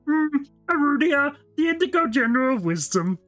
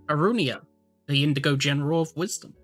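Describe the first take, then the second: First: It is said in a put-on Kermit voice. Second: It is said in the speaker's normal voice.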